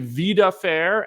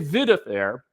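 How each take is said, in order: First: It sounds like 'vida' followed by 'fair'. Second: It sounds like 'video' followed by 'affair'. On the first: It means a life that is fair. "as in life that's fair" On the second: It means a video affair. "as in video affair"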